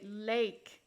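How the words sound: The word is said with a Canadian vowel. "they say lake"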